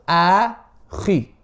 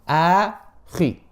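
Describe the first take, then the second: No difference in how they are said.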